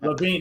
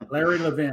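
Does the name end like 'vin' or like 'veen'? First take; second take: veen; vin. First: The name ends with a long 'veen' sound. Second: The name ends with a short 'vin' sound. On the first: The speaker calls it right. "it's Levine" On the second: The speaker calls it wrong. "So you correct me if I said it wrong"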